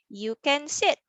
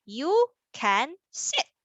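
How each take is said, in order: First: Said in the usual way. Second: Slow, with gaps between the words; word-by-word reading. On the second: Shown as a demonstration. Teacher models reading for children, word by word. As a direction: read each word on its own. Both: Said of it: "how about we read our sentence".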